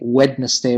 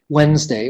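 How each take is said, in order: First: The word is said fully in three syllables. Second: The word is said reduced in two syllables. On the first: The speaker calls it wrong. "We never say Wednesday" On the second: The speaker calls it right. "That's a reduction as well"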